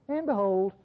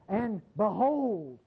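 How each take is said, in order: First: It is said casually, with little energy. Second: It is said dramatically, with strong energy. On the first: Nothing special is coming. The speaker calls it wrong. "It isn't the way we say it" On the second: Something huge is about to happen. The speaker calls it right. "like a mountain lion's about to jump on you"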